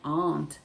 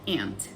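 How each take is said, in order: First: It is said the regional way, not American. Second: It is said the general American way, like ant.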